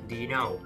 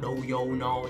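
First: The words are reduced and run together. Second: Each word is pronounced fully and separately. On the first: The speaker calls it right. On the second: The speaker calls it wrong.

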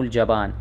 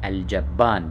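First: The b sound is short and single. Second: The b sound is doubled and held longer. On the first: The speaker calls it wrong. "مو الجبان" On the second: The speaker calls it right. "بتشديد الباء"

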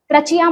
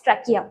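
First: The middle consonant is a ch sound. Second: The middle consonant is a k sound. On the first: The speaker calls it wrong. "ट्रचिया मत बोलो" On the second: The speaker calls it right. "It's ट्रकिया"

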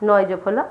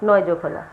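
No difference in how they are said.

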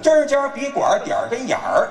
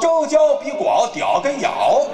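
First: The sounds are articulated clearly and crisply. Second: The sounds are slurred as if thick-tongued. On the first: The speaker calls it right. "口齿要清楚" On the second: The speaker calls it wrong. "要大舌头说呢"

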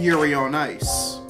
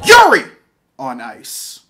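First: The title is said in a calm, flat voice. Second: The title is said loudly with excited energy. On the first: The speaker calls it wrong. "I used the wrong pronunciation for that" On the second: The speaker calls it right. "There are 3 exclamation marks"

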